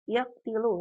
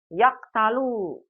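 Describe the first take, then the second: First: The vowel after the t is i. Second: The vowel after the t is a. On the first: "nggak boleh" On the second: "Tidak boleh umat baca apa?"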